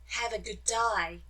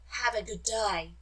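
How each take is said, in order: First: It is said in an Australian accent. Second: It is said in an Australian accent.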